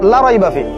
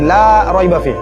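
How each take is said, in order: First: The vowel in the first word is cut short. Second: The vowel in the first word is drawn out. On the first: There is certainly doubt in it. The speaker calls it wrong. "যদি টান না দেই" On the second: There is no doubt in it. The speaker calls it right. "আমি লাই কিন্তু টান দিছি"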